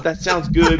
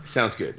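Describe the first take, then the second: First: High-pitched noncommittal hedging; imitating a reluctant tightwad; mock cheapskate stalling. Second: Understated done-deal reply; matter-of-fact decisiveness. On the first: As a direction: agree without committing, in a raised put-on voice. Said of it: "the cheapskate being like". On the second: Retold or imitated. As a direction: agree on the spot, quietly and simply. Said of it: "we were having none of it. We were like".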